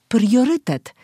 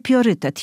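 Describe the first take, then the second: First: The word is said in its full, careful form. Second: The word is said in a simplified, easier form. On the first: The speaker calls it right. "tylko priorytet" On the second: The speaker calls it wrong. "To nie priorytet"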